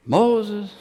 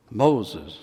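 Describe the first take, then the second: First: First call. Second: Second call, lower. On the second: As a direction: call again, lower, as if he didn't hear. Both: Acted. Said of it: "You had to call him twice".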